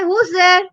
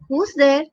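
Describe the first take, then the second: First: It is said more loudly. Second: It is said softly.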